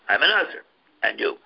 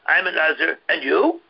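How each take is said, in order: First: It is said as a flat, falling statement. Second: It is said with a questioning, rising tune. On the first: He makes his vow depend on hers. "Whereas in the Bryce is talking about" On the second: Her answer has nothing to do with his vow. "So the Mishnah is talking about the guy said"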